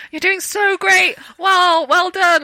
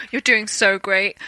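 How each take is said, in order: First: Higher, slow, gushing encouragement; lightly voiced kind co-star cheering her on; encouraging praise. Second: Said in the usual way. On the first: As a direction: praise her like a proud mentor. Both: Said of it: "he was like".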